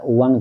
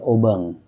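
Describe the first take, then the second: First: It is said with a w-like sound, Indonesian style. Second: It is said with a b sound, Madurese style.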